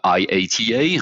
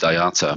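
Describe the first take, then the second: First: Each letter is spelled out separately. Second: It is said as one whole word. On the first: "would pronounce it like letter by letter" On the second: "I pronounce it I A T A"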